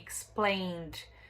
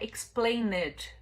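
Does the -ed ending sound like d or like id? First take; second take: d; id. First: The ending is said as a plain d sound. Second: The ending is said as an extra syllable, id. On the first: The speaker calls it right. "Nesse caso, ele tem som de D" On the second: The speaker calls it wrong. "que não é explained"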